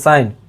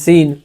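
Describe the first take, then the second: First: The vowel is an 'eye' sound. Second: The vowel is a long 'ee' sound. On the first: The speaker calls it right. "कभी ना कभी तो sir उच्चारण करेंगे ना S I N साइन" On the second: The speaker calls it wrong. "कितने आदमी पढ़ते हैं एस आई एन सीन"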